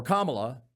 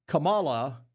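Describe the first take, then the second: First: Kamala said as KAH-muh-luh, weight on the first syllable; stress first syllable. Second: Kamala said as kuh-MAH-luh, weight on the middle syllable; stress second syllable. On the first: Host offering the alternative pronunciation, stress on KAH. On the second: Host trying out a name's pronunciation, stress on MAH. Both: Shown as a demonstration. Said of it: "am I saying it wrong?".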